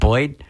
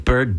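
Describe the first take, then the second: First: The word is said with a Baltimore 'oy' vowel. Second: The word is said with a plain vowel.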